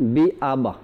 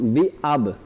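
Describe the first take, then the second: First: An extra 'a' vowel follows the final b. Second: The word ends on b with no vowel. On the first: The speaker calls it wrong. "আবা যদি বলে দিই তাহলে জবরটা চলে আসে" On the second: The speaker calls it right. "বি আব উচ্চারণটা হবে বি আব"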